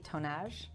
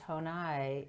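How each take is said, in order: First: The name ends with a sounded J. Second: The name ends without any J sound. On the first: The speaker calls it wrong. "I need to pronounce this properly" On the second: The speaker calls it right. "si- silent J"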